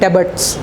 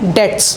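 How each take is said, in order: First: A b sound is heard in the middle. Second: No b sound is heard in the middle. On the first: The speaker calls it wrong. "इसको कई बच्चे पढ़ते हैं डेबट्स। No बेटा ये गलत है" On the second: The speaker calls it right. "इसका जो प्रोनाउंसिएशन होता है वो होता है डेट्स"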